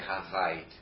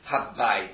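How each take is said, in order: First: The consonant after ha is a single v. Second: The consonant after ha is a doubled b. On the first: The speaker calls it wrong. "you don't say havait" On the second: The speaker calls it right. "That's why you say habbait"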